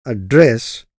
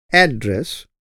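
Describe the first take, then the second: First: "Address" with stress on the second syllable, ad-DRESS, as a verb. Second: "Address" with stress on the first syllable, AD-dress, as a noun. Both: Shown as a demonstration.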